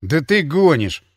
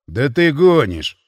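First: Incredulous. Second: Slow, drawn-out disbelief; you can't be serious; disbelieving. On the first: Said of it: "не выдержал я". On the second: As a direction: drunk friend doubting. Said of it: "не поверил мне Ворон". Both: Acted.

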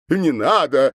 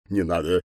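First: Louder, higher begging cry of не надо; wailing plea. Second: Said in the usual way. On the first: A narrator's reading. Governor begging the girls, louder wailing не надо. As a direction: wail не надо like a frightened man. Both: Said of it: "запричитал губернатор".

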